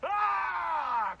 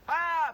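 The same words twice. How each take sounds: First: Long, high, loud scream; sustained all-out yell; full-body scream. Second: Short, high, loud yell; brief held-back shout; voice-only scream. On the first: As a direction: put the whole body into the scream. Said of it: "Full body, like, embody the scream". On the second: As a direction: scream with just the voice. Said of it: "Instead of, "Ah," be like". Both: Shown as a demonstration.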